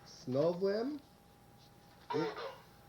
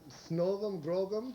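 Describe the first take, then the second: First: The phrase is said more slowly. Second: The phrase is said at normal speed.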